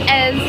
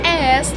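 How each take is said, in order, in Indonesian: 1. Akhirannya adalah bunyi s tak bersuara. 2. Akhirannya adalah bunyi s tak bersuara.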